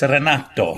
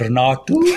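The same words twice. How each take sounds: First: The name is said with an Italian accent. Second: The name is said with an Afrikaans accent.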